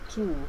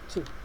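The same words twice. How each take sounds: First: The word has a full vowel, like 'two'. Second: The word has a short, weak vowel. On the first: It comes before a vowel sound. "One is called two, just like number two" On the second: It comes before a consonant. "as you say it here, is called two"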